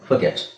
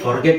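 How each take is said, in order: First: The first syllable has a short, weak 'fer' vowel. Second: The first syllable has a long, full 'far' vowel. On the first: The speaker calls it right. "ಯಾಕೆ ನಾವು extra sounds ಮಾಡಬೇಕು?" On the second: The speaker calls it wrong. "Indian pronunciation ಅಲ್ಲಿ ನಿಮಗೆ ಫಾರ್ಗೆಟ್ ಅಂತಾನೆ ಬರೋದು"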